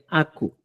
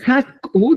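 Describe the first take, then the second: First: "aku" without the initial H; Chanca pronunciation. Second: "haku" with an aspirated start, high and loud; pronounced with initial H. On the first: Teacher giving the Chanca form, "aku" with no H. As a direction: start "aku" straight on the A. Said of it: "como en el chanca diría". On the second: Teacher showing how flour is said, "haku" with H. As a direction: lift "haku" high, sounding the H. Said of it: "¿cómo decimos?". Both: Shown as a demonstration.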